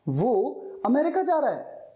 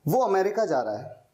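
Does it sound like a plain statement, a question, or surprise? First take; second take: surprise; plain statement. First: It is said with surprise. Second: It is said as a plain statement.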